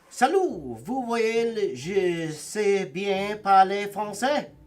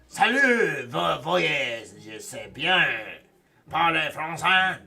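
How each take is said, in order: First: It is said without a Quebec accent. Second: It is said in a harsher Quebec accent.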